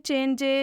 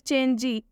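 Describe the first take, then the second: First: The word ends with an added ay sound. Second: The word ends with an added ee sound. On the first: "वो लोग पढ़ देंगे चेंजे या फिर चेंजी। आपको ऐसा नहीं करना है" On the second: "वो लोग पढ़ देंगे चेंजे या फिर चेंजी। आपको ऐसा नहीं करना है"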